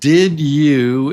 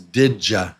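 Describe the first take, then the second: First: The two words are said fully and separately. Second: The words merge with a 'j' sound.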